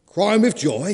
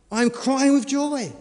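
First: "Crying with joy?" lancé plus fort, incrédule; le fermier s'exclame, montée étonnée; mock shout. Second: "I'm crying with joy" dit plus haut et lentement, ton de la femme; la femme, aiguë et posée, joyeuse; high, slow wife's voice. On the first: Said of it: "he shouted". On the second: Acted. Wife explains her tears.

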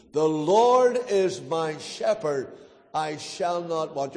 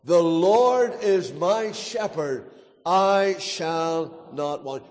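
First: Slow, measured recitation, softening at the end; leading group recitation. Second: Slow, deliberate recitation with drawn-out words; rally them by stretching out every word firmly; firm, un-mumbled recitation. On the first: Preacher reciting a psalm with the congregation, slow and subdued. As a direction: lead the congregation through the verse slowly. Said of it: "Let's say it together after two". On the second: Preacher urging a mumbling congregation on, slow firm recitation. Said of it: "You're only mumbling it. Come on". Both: Shown as a demonstration.

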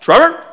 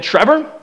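First: Higher, louder sing-song Trevor; parents calling his name. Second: Higher sing-song call of Trevor; parents calling his name. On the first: Parents calling their son, louder sing-song call. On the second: Parents calling their son, sing-song call. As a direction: call the boy's name like mom and dad. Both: Retold or imitated. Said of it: "this is how they talked".

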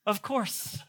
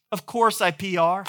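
First: Softer, smug tossed-off repeat; smug aside. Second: Said in the usual way. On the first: Shown as a demonstration. Pastor bragging about his workout, smug soft aside. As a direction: savour it quietly to yourself.

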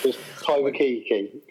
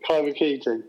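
First: "Kai Waikiki" said slowly with a rising tune; slow careful name. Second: "Kai Waikiki" repeated with a firm falling tune; confirming name. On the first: Correcting a friend on the director's name, slow and rising. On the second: Repeating the director's name to settle it, falling. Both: Real, not acted.

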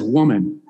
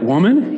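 First: Deadpan retelling. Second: Indignant denial. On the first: Retold or imitated. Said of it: "and he says". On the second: Acted. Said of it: "he said".

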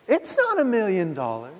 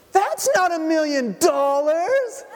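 First: A hint of the child's complaint, only slightly higher; quick light echo of the kid's line; lightly voiced little girl. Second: Put-on very high, slow child's complaint, half laughing; a spoiled kid protesting her gift; indignant little girl. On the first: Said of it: "and then within a couple years". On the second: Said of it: "she throws them and she goes".

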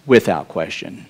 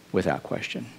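First: Said in the usual way. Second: Softer echo, nearly under the breath; quiet echo. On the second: Acted. Preacher echoes his point to the church, much softer. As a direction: repeat it softly to yourself. Repeated affirmation.

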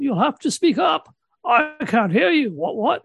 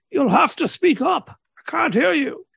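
First: Put-on high, calling out deaf old man. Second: Put-on deaf old man voice. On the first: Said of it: "I'll say every so often". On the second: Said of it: "I have to play a, a jolly old deaf man".

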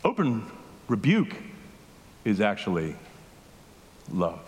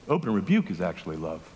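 First: "Open" "rebuke" "is actually" "love" each set apart by long pauses; spaced out for weight. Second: Said in the usual way. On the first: Shown as a demonstration. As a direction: drop each word alone to let "love" land.

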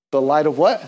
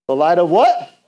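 First: Said in the usual way. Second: Louder, coaxing question to the crowd; loud prompt. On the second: Real, not acted. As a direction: call it out so they answer. Prompting congregation for answer.

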